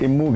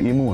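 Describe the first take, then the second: First: The first vowel is short, before a doubled m. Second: The first vowel is long, before a single m. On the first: This is how other people say the name. The speaker calls it wrong. "लोग इम्मू कहते हैं" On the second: This is the name's actual form. The speaker calls it right. "ईमू है वो"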